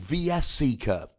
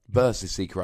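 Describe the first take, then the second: First: VS is read as two separate letters. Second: VS is read as the word versus. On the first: The speaker calls it wrong. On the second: The speaker calls it right.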